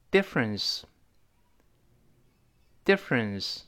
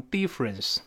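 First: 'difference' with a short, lax first vowel, slowly; short correct vowel. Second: 'difference' said as 'deefference'; wrong EE vowel. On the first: Teacher leading a read-along, slow careful short-vowel 'difference'. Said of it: "单词中间儿发诶". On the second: Teacher showing a common learners' error, 'difference' with ee. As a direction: put a long ee in the first syllable of 'difference'. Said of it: "不要读成". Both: Shown as a demonstration.

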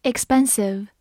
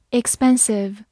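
The two takes are said the same way.

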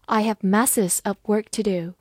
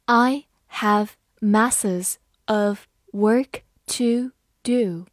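First: Said in the usual way. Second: Slow, word-by-word reading; unhurried teacher's reading with clear gaps; slow model reading. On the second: Shown as a demonstration. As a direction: spell out the sentence one word at a time. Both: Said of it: "慢读一遍".

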